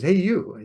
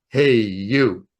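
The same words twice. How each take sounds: First: Small child's attempt at a big voice; higher-pitched kid mimicking a booming call; child imitating deep voice. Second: Loud, drawn-out call from a powerful voice; booming male voice. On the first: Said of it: "four and a half year old trying to talk deep". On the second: Retold or imitated. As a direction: boom it out, big and slow. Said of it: "a big booming male voice".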